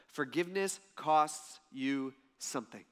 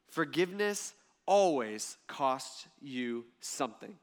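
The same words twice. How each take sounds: First: "forgiveness costs you something" slow, with "costs" hit hard; slow emphasis. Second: Slow, with "always" stretched and rising in "Forgiveness always costs you something"; slow emphasis. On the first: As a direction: press on "costs" and go slowly. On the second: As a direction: draw out "always" with a rise. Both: Acted.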